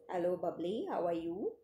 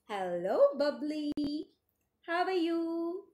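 First: It is read flatly, without expression. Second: It is read lively, with expression.

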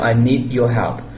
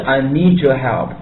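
First: The words need and your stay separate. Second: The words need and your blend together. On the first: "并没有读" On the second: "我们读的是"

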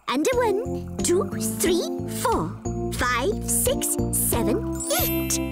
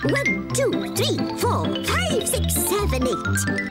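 First: The counting is at a slower pace. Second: The counting is at a faster pace.

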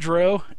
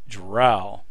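First: The vowel rhymes with toe. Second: The vowel rhymes with cow. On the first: The speaker calls it wrong. "not with toe. So it's not dro" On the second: The speaker calls it right. "rhymes with cow"

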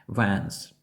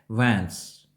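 The two takes are said the same way.

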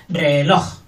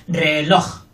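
The two takes are said the same way.

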